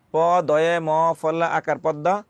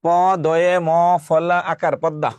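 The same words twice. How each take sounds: First: পদ্মা spelt again slowly at normal level; slow, even spelling of প দয়ে ম ফলা আকার পদ্মা; each part of প দয়ে ম ফলা আকার পদ্মা said calmly. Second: পদ্মা spelt letter by letter, slow and louder; প দয়ে ম ফলা আকার পদ্মা read out slowly, loud; spelling out slowly. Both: Shown as a demonstration. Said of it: "এখন আসুন".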